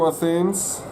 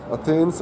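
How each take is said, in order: First: ATH-enz, th as a lisped sound; English pronunciation. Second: Athens with a hard t, "Atens"; hesitant retry of Athens as "A-tens"; unsure pronunciation. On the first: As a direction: say Athens with th as in thin. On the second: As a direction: try Athens with t in place of th. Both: Real, not acted. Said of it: "I don't know how to pronounce it".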